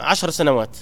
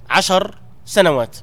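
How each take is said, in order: First: Said in the usual way. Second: عشر سنوات drawn out slowly, each word weighed; slow down and lean on عشر سنوات; slow emphasis on عشر سنوات. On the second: Shown as a demonstration. A preacher stressing the young age to his class, slowly.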